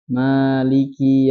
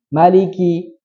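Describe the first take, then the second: First: The first vowel is held long. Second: The first vowel is cut short. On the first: The speaker calls it right. "Ini maliki hanya panjang" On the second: The speaker calls it wrong. "menghilangkan apa? Alif. Jadi kan langsung gini"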